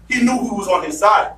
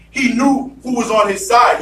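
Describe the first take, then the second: First: Said in the usual way. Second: Preached shout. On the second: Shown as a demonstration. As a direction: hammer home the faith. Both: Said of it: "preacher repeats line, building".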